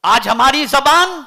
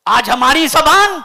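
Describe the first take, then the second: No difference in how they are said.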